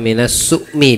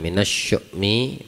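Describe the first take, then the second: First: The word starts with a plain s sound. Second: The word starts with an sh sound. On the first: The speaker calls it wrong. "Bukan su" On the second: The speaker calls it right. "pakai shin yang betulnya"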